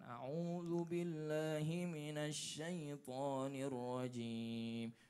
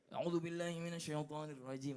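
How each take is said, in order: First: It is said slowly and calmly. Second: It is said quickly and hurriedly.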